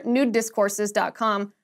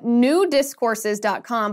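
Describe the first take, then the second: First: "new discourses" run together like "nudist courses"; "new discourses dot com" said as one connected phrase; a bit faster. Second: "new discourses" slowly, as two separate words; measured, deliberate "new discourses dot com"; slow and careful. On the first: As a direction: slur "new" into "discourses" a little quicker. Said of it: "say it a little bit faster". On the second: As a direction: enunciate "new discourses" carefully, keeping "new" apart. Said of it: "if you say it a little bit faster". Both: Shown as a demonstration.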